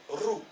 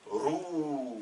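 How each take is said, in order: First: « Rou » avec un ou bref, plus haut. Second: « Rou » avec un ou long et tenu, plus haut. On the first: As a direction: dire « Rou » avec une voyelle courte. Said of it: "Avec la dhamma, il va se prononcer". (« Rou » avec voyelle brève) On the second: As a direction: allonger le ou de « Rou ». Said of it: "Avec le waw, la longue voyelle". (« Rou » avec voyelle longue) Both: Shown as a demonstration.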